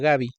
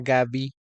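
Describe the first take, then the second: First: Stress on the first syllable, no break. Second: Stress on the last syllable, with a break. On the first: The speaker calls it wrong. "sin el acento en la I, ni con el silencio de la separación" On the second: The speaker calls it right.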